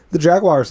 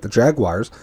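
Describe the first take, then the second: First: Jaguars said higher and louder; emphatic repeat. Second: Said in the usual way. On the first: Shown as a demonstration. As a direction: punch the word Jaguars on the repeat. Repeats the team name louder.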